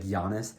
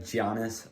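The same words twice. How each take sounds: First: Said in the usual way. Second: "Giannis" said with a hard J at the start; "Giannis" starting like "John" instead of "Yah"; mispronounced name. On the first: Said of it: "you just mispronounce people's names". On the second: Shown as a demonstration. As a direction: mispronounce "Giannis" as "JAH-nis". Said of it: "like, mispronounce his last name".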